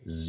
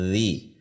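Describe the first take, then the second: First: It is a buzzing z sound. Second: It is a soft th sound. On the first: The speaker calls it wrong. "bisa menimbulkan suara Z" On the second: The speaker calls it right. "Ujung lidah keluar sedikit"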